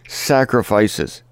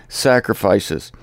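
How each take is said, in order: No difference in how they are said.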